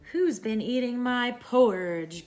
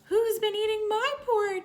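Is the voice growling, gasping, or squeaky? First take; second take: growling; squeaky. First: It is said in a deep growling voice. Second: It is said in a high squeaky voice.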